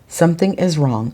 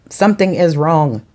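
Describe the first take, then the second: First: It is read flatly, without emphasis. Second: It is said with lively, expressive emphasis.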